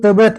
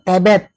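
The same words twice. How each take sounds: First: The first vowel is a weak schwa. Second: The first vowel is a clear e. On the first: This is the form those regional speakers do not use. The speaker calls it right. "nggak ada tuh" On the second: This is the form those regional speakers actually use. The speaker calls it wrong.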